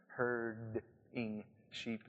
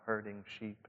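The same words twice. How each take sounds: First: "Herding" drawn out slowly, the "d" clearly separated from "ing"; soft, very slow "Herd-ing", so it cannot be taken for hurting; careful enunciation. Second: Said in the usual way. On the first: Shown as a demonstration. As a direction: say "Herding" syllable by syllable, softly, with a distinct d. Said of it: "not hurting sheep". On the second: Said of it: "that's my Southern Indiana accent".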